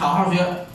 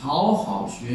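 First: It is said fast. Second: It is said slowly.

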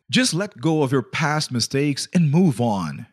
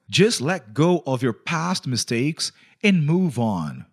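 First: It is said at normal speed. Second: It is said more slowly.

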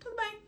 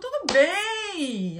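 First: It sounds neutral and flat. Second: It sounds excited and enthusiastic.

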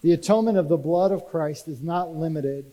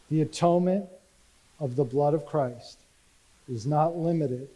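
First: It is said loudly, almost yelling. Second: It is said quietly in a calm tone. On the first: "he's yelling again" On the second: "I'll say it again with a calm tone"

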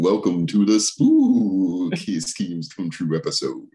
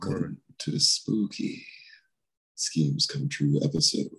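First: It is said in a plain spooky voice. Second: It is said in an ominous, low voice.

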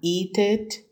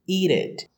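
First: The two words are said separately. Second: The two words are linked together.

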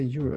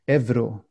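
First: Euro is pronounced the English way. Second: Euro is pronounced with a v sound. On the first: The speaker borrows the English form. "people have a tendency of anglifying things" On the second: The speaker uses the native form. "which would be more natural for Sweden"

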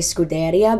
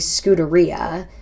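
First: The word is pronounced in an Italian way. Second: The word is pronounced in a British English way. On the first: "how you say it in Italian" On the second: "the British say Scuderia"

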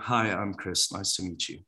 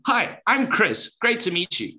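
First: It is said flatly, without much energy. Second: It is said with lots of energy.

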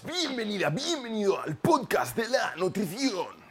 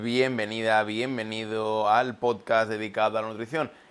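First: It is said in an unusual put-on voice. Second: It is said in his normal speaking voice.

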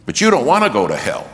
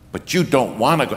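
First: It is said with a raised, louder voice. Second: It is said at a quieter level.

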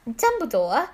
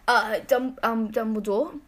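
First: It is said without the old wizard voice. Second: It is said in a put-on old wizard voice. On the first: The speaker calls it right. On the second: The speaker calls it wrong.

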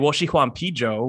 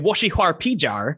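First: It is said in standard Mandarin. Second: It is said with a piratey Shanghai R ending.

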